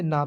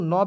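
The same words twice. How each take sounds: First: ना said with a long open aa; ना with the vowel drawn to aa. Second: न said with a short inherent vowel, 'nuh'; short, rounded 'na' for न; न with no long aa. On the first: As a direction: open 'naa' for ना. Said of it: "एन ऐसे ना भी होता है". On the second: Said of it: "न भी होता है और". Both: Shown as a demonstration.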